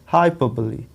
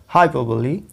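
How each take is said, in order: The two takes are said the same way.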